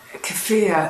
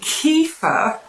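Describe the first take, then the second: First: The word ends with a syllable like 'fear'. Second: The word sounds like 'kee-fer', ending in 'fer'. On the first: "like fear" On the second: "like Kiefer Sutherland"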